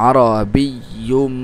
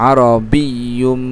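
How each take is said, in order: The two takes are said the same way.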